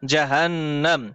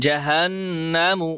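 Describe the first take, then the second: First: জাহান্নাম said ending on a closed m, no u; ending without the vowel. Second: জাহান্নামু with a short u sounded at the end; spelled with final vowel. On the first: Teacher correcting the stop at জাহান্নাম, final m closed. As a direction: close জাহান্নাম on a plain m sound. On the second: Teacher spelling জাহান্নামু before correcting the ending. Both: Shown as a demonstration. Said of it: "মিম পেশ মু আর উচ্চারণ হবে না".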